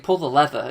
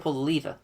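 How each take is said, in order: First: Lever is said with an American pronunciation. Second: Lever is said with a British pronunciation. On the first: This is how the other country says it. The speaker calls it wrong. "they say pull the lever" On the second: This is the speaker's own way of saying it. The speaker calls it right. "It's like no"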